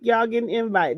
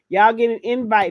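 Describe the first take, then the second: First: It is said plainly, without much conviction. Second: It is said forcefully, with strong conviction. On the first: The speaker calls it wrong. "Don't say it like that" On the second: The speaker calls it right. "Say it with conviction"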